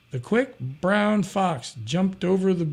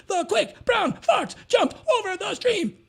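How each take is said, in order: First: Slow reading. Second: Put-on chanted, shout it back like a room of kids in unison; class chanting. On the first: Shown as a demonstration. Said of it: "So I said". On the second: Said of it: "sixty-four kids".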